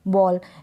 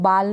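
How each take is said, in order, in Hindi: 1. यह स्वर लंबा, गोल किया हुआ 'aw' ध्वनि है। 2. यह स्वर खुला, बिना गोल किया हुआ 'aa' ध्वनि है। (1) "ए को ओ" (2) "इसको बाल नहीं पढ़ सकते"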